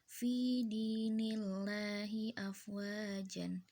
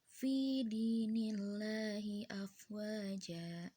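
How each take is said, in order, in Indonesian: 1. Frasa ini berakhir dengan bunyi n. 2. Frasa ini berakhir dengan vokal a yang dipanjangkan.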